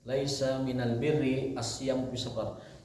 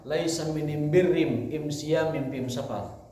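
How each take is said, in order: First: The article is pronounced with an l sound. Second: The article is pronounced with an m sound.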